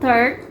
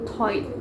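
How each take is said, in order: First: It starts with 'th' and has an 'er' vowel. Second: It starts with 't' and has an 'oi' vowel. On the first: "kata third" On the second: "ternyata dibacanya seperti toid"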